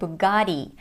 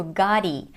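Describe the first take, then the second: First: The middle T is a fast, D-like flap. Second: The middle T is a fast, D-like flap.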